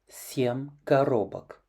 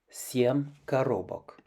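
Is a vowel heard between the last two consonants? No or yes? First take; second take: yes; yes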